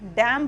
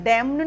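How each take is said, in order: First: The final n sound is silent. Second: The final n sound is pronounced. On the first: The speaker calls it right. "एन का sound हम नहीं use करेंगे" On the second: The speaker calls it wrong. "डैम्न नहीं होता"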